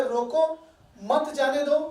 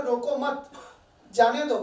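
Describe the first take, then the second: First: "रोको," then a pause, then "मत जाने दो" as one phrase; "रोको" set apart, a clear pause, "मत जाने दो" together; pause after रोको. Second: "रोको मत" as one phrase, then a pause before "जाने दो"; "रोको मत" together, a clear pause, then "जाने दो" falling; pause after मत. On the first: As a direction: break after "रोको" so it means stop him, don't let him go. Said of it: "कभी-कभी किसी को कहते हैं". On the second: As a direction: break after "मत" so it means don't stop him, let him go. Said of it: "तो वो सुनता है". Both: Shown as a demonstration.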